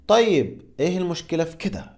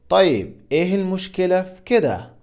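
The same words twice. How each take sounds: First: The phrase is said at a fast pace. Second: The phrase is said at a normal pace.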